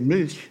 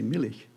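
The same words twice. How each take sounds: First: It is said with one syllable, German style. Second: It is said with two syllables, Pennsylvania Dutch style.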